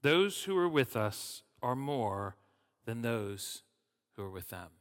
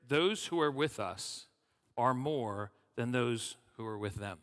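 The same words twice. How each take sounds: First: Slow, loud "Those who are with us are more", then dropping away; emphatic repetition. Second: Said in the usual way. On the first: A narrator's reading. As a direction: lean hard on "more", pausing before "than those". Repeats key verse for emphasis.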